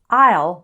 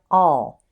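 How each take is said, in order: First: The words are joined into one syllable. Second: The vowel is reduced, sounding like 'all'. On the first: "becomes I'll" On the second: "it often sounds like all"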